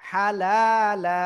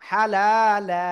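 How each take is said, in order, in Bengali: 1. শব্দটি দীর্ঘ আ-স্বরধ্বনি দিয়ে শেষ হয়। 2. শব্দটি দীর্ঘ আ-স্বরধ্বনি দিয়ে শেষ হয়।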